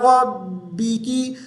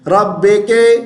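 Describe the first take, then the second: First: The last syllables sound like 'bi ki'. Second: The last syllables sound like 'be ke'. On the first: The speaker calls it right. "बी की आवाज है" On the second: The speaker calls it wrong. "बे के नहीं पढ़ना"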